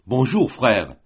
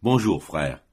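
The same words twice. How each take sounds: First: Slightly louder, bright hello; hearty greeting. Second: Lower, curt, reserved hello; cold reply. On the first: Adjudant greets Matteo, lightly hearty voice. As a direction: greet him like an old pal. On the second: Matteo answers the adjudant, a touch cold and lower. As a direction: answer without warmth. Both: A narrator's reading.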